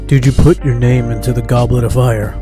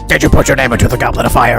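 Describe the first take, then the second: First: It is read in a plain, monotone speaking voice. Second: It is read in a put-on character voice.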